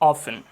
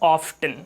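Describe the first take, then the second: First: The t sound is silent in the word. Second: The t sound is pronounced in the word. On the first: This is the British way of saying it. The speaker calls it right. "हम इसको ऑफ्टन के बजाय ऑफन बोलेंगे" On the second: This is the American way of saying it. The speaker calls it wrong. "हम इसको पढ़ देते हैं ऑफ्टन"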